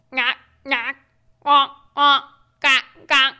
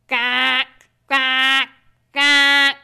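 First: Lightly voiced little duck quacks; a hint of small ducks calling; small ducks quacking. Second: Slow quacks growing louder; big ducks quacking. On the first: Reading to a child, light quacks of the small ducks. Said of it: "waggle their tails and quack". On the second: Reading to a child, the big ducks' louder quacks. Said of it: "The big ducks say". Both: A narrator's reading.

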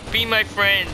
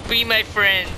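Both takes have the same delivery.

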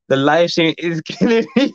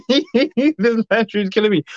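First: Laughing through the words; giggling as she reads it; amused, half-laughing read. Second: Slow, higher mock voice reading the comment; lightly voiced mock plaint; put-on voice. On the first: Real, not acted. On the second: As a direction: play it as a silly character voice.

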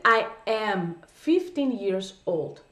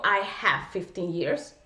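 First: Put-on "I am fifteen years old" said very slowly, word by word; slow correct version. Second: "I have fifteen years" said slowly and lower as the mistake; slow wrong version. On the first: Teacher giving students the correct phrase very slowly. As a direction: model the right phrase very slowly. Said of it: "Lo correcto es decir". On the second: Teacher showing students the incorrect phrase slowly. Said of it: "Yo no digo". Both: Shown as a demonstration.

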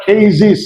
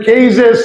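First: কেজিস ending in "-ziz"; new "-iz" ending. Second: কেজেস ending in "-zes"; old "-es" ending. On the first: Teacher showing the corrected way, কেজিস with "-ziz". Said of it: "এখন বলবো আমরা". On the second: Teacher recalling the earlier way, কেজেস with "-zes". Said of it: "আগে বলেছি". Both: Shown as a demonstration.

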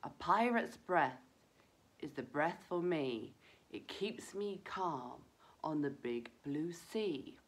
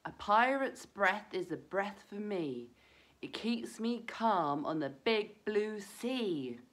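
First: Calming rhyme. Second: Slow, clear chant to repeat together; rhyme for children. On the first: Reciting a calming rhyme to children. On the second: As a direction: lead the children through the rhyme. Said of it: "let's all try that rhyme again". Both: Shown as a demonstration.

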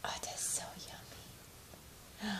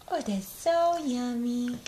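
First: Whispered praise. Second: Slow excited praise. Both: Shown as a demonstration. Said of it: "praising baby's food".

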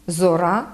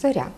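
First: Зора with a hard r, "zo-RA". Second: Said in the usual way. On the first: Shown as a demonstration. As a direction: dialect зора, no softening of r. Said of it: "твердий". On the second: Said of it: "замість".

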